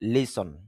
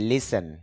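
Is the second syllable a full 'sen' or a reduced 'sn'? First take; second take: reduced sn; full sen. First: The second syllable is a reduced 'sn'. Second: The second syllable has a full 'sen' vowel. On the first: The speaker calls it right. "শুদ্ধ উচ্চারণ হবে লিসন" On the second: The speaker calls it wrong. "যদিও আমরা বলে থাকি লিসেন"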